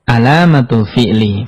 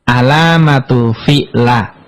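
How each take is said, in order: First: The last word ends with an i vowel. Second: The last word ends with an a vowel. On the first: The speaker calls it right. "Harus dibaca" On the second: The speaker calls it wrong. "nggak boleh dibaca"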